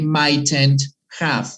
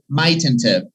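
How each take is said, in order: First: It is said slowly with each word in full. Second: It is said quickly with the words run together. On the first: The speaker calls it wrong. "we don't really say" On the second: The speaker calls it right. "We say mightn't have. ... It needs to be very quick"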